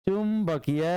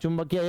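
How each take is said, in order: First: The word is broken into two separate parts. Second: The word is said smoothly as one unit. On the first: The meaning changes into something else. The speaker calls it wrong. "चुंबकीय नहीं, ऐसे नहीं पढ़ना" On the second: It means magnetic. The speaker calls it right. "एक साथ पढ़ना"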